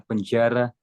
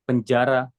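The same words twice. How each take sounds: First: "penjara" with the A not fully opened; faulty vowels. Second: "Penjara" with clear, open A vowels; correct vowels. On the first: Coach imitates trainee's mistake, "penjara" with slack A. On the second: Coach models the word for trainee, "Penjara" with open A. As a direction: say "Penjara" loudly with each A fully open. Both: Shown as a demonstration. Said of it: "bukan penjara".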